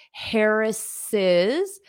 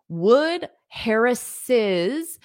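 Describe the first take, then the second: First: "Harris's" with a clear, rising "iz" at the end; possessive syllable. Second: "Harris's" said slowly with the extra syllable "iz" clear; possessive syllable. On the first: Teacher isolating the extra syllable in "Harris's", carefully sounded. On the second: Teacher showing students the possessive "Harris's", slow and clear. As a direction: stretch out "Harris's" so the "iz" is heard. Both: Shown as a demonstration. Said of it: "you need to add that extra syllable".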